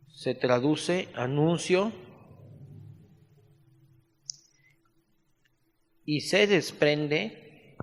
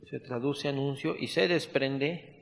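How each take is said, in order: First: Very slow, words spaced for note-taking; slow dictation. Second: Said in the usual way. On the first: Shown as a demonstration. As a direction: dictate it slowly so they can write.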